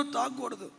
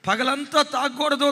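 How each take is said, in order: First: తాగకూడదు dropped soft with a falling end; fading resolve. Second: తాగకూడదు pushed out higher and louder; firm resolve. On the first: Son repeating his vow to his father, fading softly. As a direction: let తాగకూడదు sink away quietly. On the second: Son vowing to himself not to drink, raised and firm. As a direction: insist తాగకూడదు with force. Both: Retold or imitated. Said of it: "ఏడుస్తూ అంటాడట".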